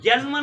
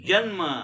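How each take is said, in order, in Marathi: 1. हा शब्द निष्काळजीपणे, बिघडलेल्या पद्धतीने उच्चारला जातो. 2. हा शब्द काळजीपूर्वक, शुद्ध पद्धतीने उच्चारला जातो. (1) "जन्म नाही बरं" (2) "म्हणजे असे शुद्ध शब्द काढावे"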